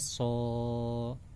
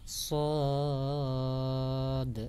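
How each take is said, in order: First: The letter is a short open syllable, so. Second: The letter is its full name, sod. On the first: The speaker calls it wrong. "Jangan sampai dibaca" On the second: The speaker calls it right. "yang benar adalah"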